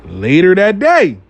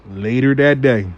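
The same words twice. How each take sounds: First: Slow, slightly raised teaser; dramatic build-up. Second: Said in the usual way. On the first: Shown as a demonstration. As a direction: stretch it out for suspense. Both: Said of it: "later that day repeated".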